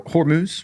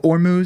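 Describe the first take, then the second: First: The word begins with an audible H sound. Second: The word begins with a vowel, no H sound. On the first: The speaker calls it right. "Hormuz is, is correct" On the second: The speaker calls it wrong. "people leave that H off and go Ormuz"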